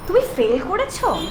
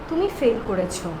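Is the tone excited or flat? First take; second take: excited; flat. First: It is said in an excited, lively tone. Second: It is said flatly with no expression. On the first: The speaker is very happy about it. "এরপর আমি excited হয়ে বললাম" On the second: It is a plain statement of fact. "ওটা শুনে মনে হয়েছে normal sentence, কোনো এক্সপ্রেশনই নাই"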